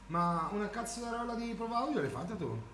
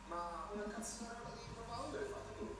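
First: It is said in his plain normal voice. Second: It is said in a put-on British voice.

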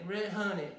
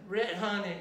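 Both takes have the same delivery.

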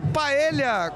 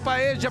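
First: The double L is said with an L sound. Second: The double L is said with a J sound. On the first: The speaker calls it right. "É paella, LL" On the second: The speaker calls it wrong. "E LL na Argentina tem som de já. Aí ficou paeja"

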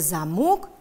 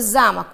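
First: The stress is on the second syllable. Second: The stress is on the first syllable. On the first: It means a lock. "на двери замка у нас висел замок" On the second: It means a castle. "в слове «замок» ударный у нас первый слог"

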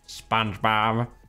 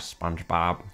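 First: A stronger, more convincing nasal cartoon voice. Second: A weak, unconvincing nasal cartoon voice. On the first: The speaker calls it right. "I can do it better than that" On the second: The speaker calls it wrong. "that's not even doing it properly"

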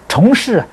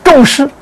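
First: The first syllable is pronounced chong, rising tone. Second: The first syllable is pronounced zhong, falling tone. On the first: The vows are made many times over. "念虫也行" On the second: The vows made are very weighty. "这个字念众行"

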